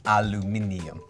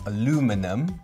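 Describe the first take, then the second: First: The word is said with five syllables. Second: The word is said with four syllables. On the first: "but we pronounce aluminium" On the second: "Americans only have one I, so they pronounce aluminum"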